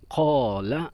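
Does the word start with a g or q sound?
q. The word begins with a deep q sound. This is the standard form. "Contoh dalam bahasa Fusha"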